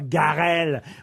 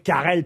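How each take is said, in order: First: The name begins with a hard G sound. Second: The name begins with a hard K sound. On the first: The speaker calls it wrong. "pas Garel" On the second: The speaker calls it right. "c'est Roger Carrel"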